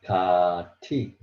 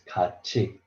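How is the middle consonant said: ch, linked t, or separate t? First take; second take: linked t; ch. First: A t sound linked straight into the vowel. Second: A ch sound linked into the final vowel. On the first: The speaker calls it wrong. "So it changed Kati. Still, it's very hard to pronounce" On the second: The speaker calls it right. "T sound change to C H sound. So you have to read like this"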